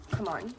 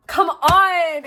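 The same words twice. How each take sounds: First: Soft, low coaxing; low aside. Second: Loud, raised-pitch exclamation; loud coaxing. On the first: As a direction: drop the voice low and quiet. First of two contrasting pleas. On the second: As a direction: push it out louder and higher. Second plea, escalated. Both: Real, not acted.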